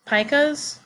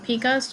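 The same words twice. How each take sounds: First: "pikas" said as PIE-kuhz; "pikas" rhyming with Micah's; first pronunciation variant. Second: "pikas" said as PEE-kuhz; "pikas" starting like the word "peek"; second pronunciation variant. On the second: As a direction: say "pikas" with a long E, like pea. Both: Shown as a demonstration. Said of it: "depending on how you pronounce it".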